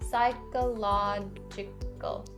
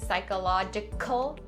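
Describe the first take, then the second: First: The middle k sound is soft and subtle. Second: The middle k sound is strong and overdone. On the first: The speaker calls it right. "Make it a subtle k sound" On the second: The speaker calls it wrong. "Don't over enunciate it and say psychological"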